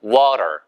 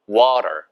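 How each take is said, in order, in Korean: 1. 미국식 발음으로 말해요. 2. 미국식 발음으로 말해요.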